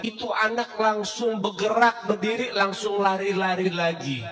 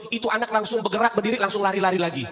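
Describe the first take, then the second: First: Slow, drawn-out for wonder; slow emphatic retelling. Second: Said in the usual way. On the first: Shown as a demonstration. Preacher repeats the miracle line slowly to the congregation. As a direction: stretch it out slowly. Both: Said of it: "repeats the line slowly".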